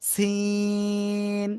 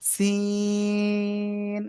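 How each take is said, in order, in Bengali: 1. শব্দটি s ধ্বনি দিয়ে শুরু হয়। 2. শব্দটি s ধ্বনি দিয়ে শুরু হয়।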